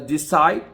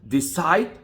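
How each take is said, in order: Both takes have the same delivery.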